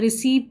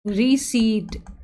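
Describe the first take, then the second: First: A p sound is said before the final t. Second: No p sound is said before the final t. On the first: The speaker calls it wrong. "इसको तो हम कुछ और pronounce करते हैं, रिसीप्ट बोल रिसिप्ट बोलते हैं" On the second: The speaker calls it right. "इसका साउंड आता है रिसीट"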